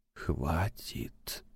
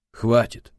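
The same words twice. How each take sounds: First: Soft whispered word, voice almost gone. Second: Loud exclamation. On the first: Alone in the dark flat, whispering to himself. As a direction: breathe it out in a whisper. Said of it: "прошептал он". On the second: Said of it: "громко воскликнул он". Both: A narrator's reading.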